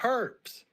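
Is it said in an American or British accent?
British. It is said in a British accent.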